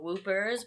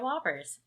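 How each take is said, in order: First: The first vowel sounds like the 'oo' in 'whoop'. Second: The first vowel sounds like the 'o' in 'hop'. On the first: The speaker calls it wrong. "what I like to call Whoopers, but they make Josh mad when I mispronounce them" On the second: The speaker calls it right. "so they are Whoppers"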